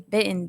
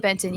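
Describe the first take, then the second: First: The t is swallowed, sounding like bitten. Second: The t is clearly pronounced in the middle. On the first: This is how locals say the name. The speaker calls it right. "they say Benton down there" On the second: This marks the speaker as an outsider. The speaker calls it wrong. "Don't say Benton, you get roasted"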